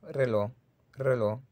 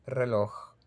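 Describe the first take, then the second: First: Reloj as "reló", final J silent; Caribbean dropped J. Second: Reloj ending in a raspy velar "kh"; J pronounced. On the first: Teacher showing his Caribbean dialect, reloj without final J. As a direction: cut reloj off on the stressed vowel. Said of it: "no dicen reloj, sino reloj". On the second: Teacher showing Mexico and Spain speakers' reloj, final "kh" sounded. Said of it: "pueden pronunciar la J de la palabra reloj". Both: Shown as a demonstration.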